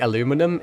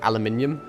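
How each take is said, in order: First: It is said the American way, with four syllables. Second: It is said the British way, with five syllables. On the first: This is the newer habit picked up from American videos. "I've started to say aluminum" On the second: This is the speaker's older, original way of saying it. "instead of aluminium"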